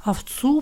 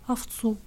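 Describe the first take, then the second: First: «Овцу» stretched out with a rising, puzzled tune; drawn-out question. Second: Small, soft, falling reply; meek answer. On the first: Mother puzzles over her son's answer, drawing out «Овцу». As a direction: draw out «Овцу» as a slowly dawning question. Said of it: "протянула мать, что-то соображая". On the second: Blind boy admits it to his mother, meekly. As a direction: answer sheepishly, barely owning up. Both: A narrator's reading.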